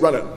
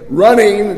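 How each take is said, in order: First: The final syllable is swallowed and clipped. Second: The final syllable is fully pronounced. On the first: "kind of swallow a syllable" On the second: "instead of saying running"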